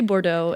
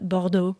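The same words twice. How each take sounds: First: It is pronounced with an English accent. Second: It is pronounced with a French accent. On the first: "I'll say Bordeaux in in English" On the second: "but Bordeaux in French"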